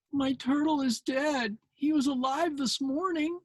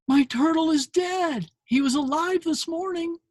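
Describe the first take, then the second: First: Lightly voiced sad little girl; upset little girl. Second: Put-on high, tearful little girl voice; upset little girl, pitched up. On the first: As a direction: voice the sad girl gently, higher. Same girl line, gentle retelling. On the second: Girl voiced in retold comic.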